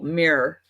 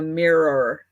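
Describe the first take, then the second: First: The word is said as one syllable. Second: The word is said as two syllables. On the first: "like one syllable" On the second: "not like a mirror"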